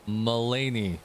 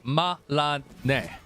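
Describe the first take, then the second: First: The name is said with English-style vowels. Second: The name is said with Japanese-style vowels. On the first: The speaker calls it right. "My bad" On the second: The speaker calls it wrong. "Japanese style would be Malane"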